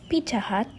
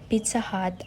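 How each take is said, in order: First: The middle consonant is a j sound. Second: The middle consonant is a z-type sound.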